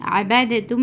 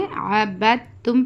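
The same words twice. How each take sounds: First: अबदतुम with the द voiced separately before तुम; अबदतुम as a-bad-tum, d not merged; wrongly sounded d. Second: अबदतुम as a-bat-tum, द silent; अबदतुम with a doubled t and no d; correct merged reading. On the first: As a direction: sound out the द in अबदतुम, the mistake to avoid. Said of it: "नहीं पढ़ना". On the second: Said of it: "इसलिए अबदतुम पढ़ना". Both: Shown as a demonstration.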